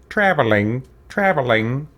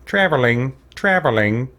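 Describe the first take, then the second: No difference in how they are said.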